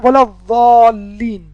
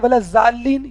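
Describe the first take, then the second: First: The last word begins with an emphatic d sound. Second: The last word begins with a z sound. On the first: The speaker calls it right. "अपनी ज़बान का पिछला हिस्सा दाढ़ों को लगाएं" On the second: The speaker calls it wrong. "कुछ लोग कहते हैं वला जालीन, ये भी गलत है"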